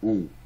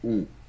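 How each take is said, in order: No difference in how they are said.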